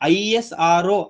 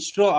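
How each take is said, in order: First: Each letter is said separately, one by one. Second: The letters are blended and said as one word. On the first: "ஐஎஸ்ஆர்ஓ அப்படின்னு சொல்லுவோம் sometime" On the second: "இஸ்ரோ அப்படின்னு நம்ம சொல்றோம்"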